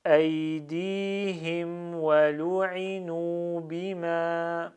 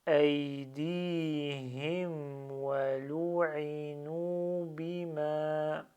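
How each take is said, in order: First: Slow, chanted Arabic recitation, drawn out; slow Quran recitation. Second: Slower still, each word held long; very slow recitation. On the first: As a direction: recite each word slowly and clearly. (récitation lente et psalmodiée) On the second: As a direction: recite it even more slowly, word by word. (récitation encore plus lente, mot à mot) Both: Shown as a demonstration. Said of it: "Je vais aller moins vite".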